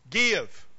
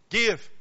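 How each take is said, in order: First: "Give" said firm and falling; stress on give. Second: Short firm falling "Give"; stress on give again. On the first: Preacher stresses the verse's word, firm emphasis. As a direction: lean on "Give". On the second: Preacher insists give not lend, firm punch. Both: Shown as a demonstration. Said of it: "Don't say lend".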